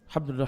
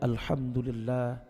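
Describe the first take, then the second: First: The phrase is said quickly and hurriedly. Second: The phrase is said slowly and calmly. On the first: The words are rushed just to reach a count. The speaker calls it wrong. "Yang penting tiga puluh tiga kali kan begitu" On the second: The praise is felt and meant. The speaker calls it right. "Kenapa tidak tenang-tenang saja dia puji Rabbnya?"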